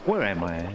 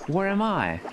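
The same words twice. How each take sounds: First: Said in the usual way. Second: "Where am I?" pitched up in a British accent, falling on "I"; British inflection. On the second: Shown as a demonstration. Streamer trying the British accent on "Where am I?". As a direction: ask "Where am I?" the British way, dropping on "I". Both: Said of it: "even the inflection has to change".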